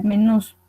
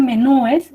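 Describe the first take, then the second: First: "menús" said with the stress on "ús", no e before the s; the right form, "menús", stressed at the end; correct plural. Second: "menúes" with an added e, stressed "ú-es"; the wrong form, "menúes", said slowly; incorrect plural. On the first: Teacher gives students the correct plural, spoken plainly. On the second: Teacher warns students against the wrong plural, said slowly. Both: Shown as a demonstration. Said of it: "Decir menúes es incorrecto".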